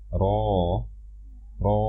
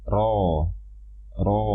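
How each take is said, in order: The two takes are said the same way.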